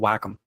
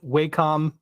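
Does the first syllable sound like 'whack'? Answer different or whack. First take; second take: whack; different. First: The first syllable sounds like 'whack'. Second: The first syllable does not sound like 'whack'. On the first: The speaker calls it right. "nope, it's a Wacom" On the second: The speaker calls it wrong. "myself have been in the Wacom tab Wacom uh, camp for many years"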